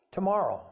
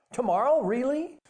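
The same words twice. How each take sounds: First: Said in the usual way. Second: Put-on high, rising child's question; hopeful surprise. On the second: A narrator's reading. Son asks father if he'll catch it tomorrow, hopeful surprise. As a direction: pipe up louder, wanting to believe it.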